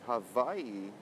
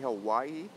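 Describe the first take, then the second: First: The middle consonant is a v sound. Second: The middle consonant is a w sound. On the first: The speaker calls it right. "They say Hawaii with the va sound" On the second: The speaker calls it wrong. "they don't say Hawaii with the wa"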